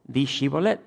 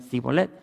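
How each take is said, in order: First: "Shibolet" said with a clear sh sound at the start; "Shibolet" pronounced correctly, sh not s. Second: "Sibolet" said with a plain hissing s instead of sh; "Sibolet" mispronounced with s. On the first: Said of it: "no podían pronunciar la S H". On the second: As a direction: swap the sh in "Sibolet" for an s. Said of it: "No podían decir Shibolet". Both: Shown as a demonstration.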